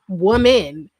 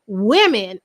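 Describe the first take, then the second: First: The first syllable has a rounded 'woo' vowel. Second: The first syllable has a short 'wih' vowel. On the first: This is how the speaker habitually said it. The speaker calls it wrong. "I would say woman" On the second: This is how other people say it. The speaker calls it right. "apparently it's women"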